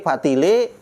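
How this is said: The word ends with an e vowel. A Betawi speaker says it. "Orang Betawi E"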